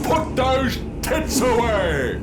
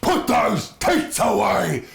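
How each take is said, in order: First: It is said in a grand, dramatic commanding voice. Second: It is said with hateful, venomous anger. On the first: The speaker is issuing a solemn command. "fucking Gandalf and Lord of the Rings" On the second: The speaker means it with real contempt. "with hate and vitriol in his soul"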